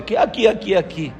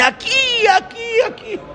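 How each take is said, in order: First: Questioning repeat in a near-usual pitch; puzzled echo. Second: Very high, excited outburst; sudden exclamation. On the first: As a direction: echo the outburst back, not understanding. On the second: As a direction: leap up high as if suddenly spotting the place. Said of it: "de repente él empieza y dice". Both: Retold or imitated.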